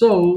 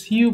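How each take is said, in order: First: The word is said with an 'oh' vowel. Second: The word is said with a 'yoo' vowel. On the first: The speaker calls it right. "But এটা কিন্তু হবে সো" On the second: The speaker calls it wrong. "এটাকে সিউ বলবো না"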